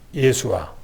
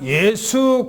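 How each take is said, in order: First: The name is said with three syllables. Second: The name is said with two syllables. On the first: This is the original form of the name. "원래 발음은" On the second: This is the everyday form people use. "우리는 그냥 예수 그렇게 얘기합니다"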